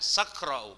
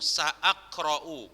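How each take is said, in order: First: Sa runs on with no glottal stop. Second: A glottal stop follows sa. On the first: The speaker calls it wrong. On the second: The speaker calls it right.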